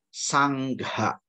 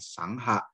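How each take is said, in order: First: The ng is followed by a clear gh. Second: The middle is only an ng sound. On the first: The speaker calls it right. "tapi sangha. Karena n titik atas udah ada san titik atas itu adalah sang. G H A gha" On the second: The speaker calls it wrong. "bukan sangha"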